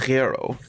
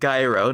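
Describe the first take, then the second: First: It starts with a soft, breathy Greek g. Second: It starts with a hard g sound. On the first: The speaker calls it right. "it's a gyro with a g, g" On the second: The speaker calls it wrong. "Not a g like gyro"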